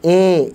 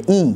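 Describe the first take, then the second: First: The vowel is lowered and open, like 'eh'. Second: The vowel is plain and close, like 'ee'. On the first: The speaker calls it wrong. "Kasrah pun juga jangan terlalu ke bawah" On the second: The speaker calls it right. "Biasa saja i"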